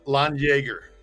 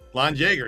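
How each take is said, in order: First: Jaeger begins with a Y sound. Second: Jaeger begins with an English J sound. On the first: The speaker calls it right. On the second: The speaker calls it wrong.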